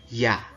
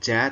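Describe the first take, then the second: First: It begins with a y sound as in yes. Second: It begins with a j sound as in jam. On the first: The speaker calls it right. "tapi ya" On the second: The speaker calls it wrong. "bacanya bukan ja"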